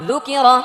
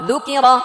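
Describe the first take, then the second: The two takes are said the same way.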